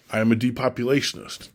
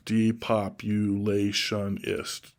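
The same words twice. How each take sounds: First: Said in the usual way. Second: Depopulationist stretched out slowly, syllable by syllable. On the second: Shown as a demonstration. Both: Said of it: "Six syllables".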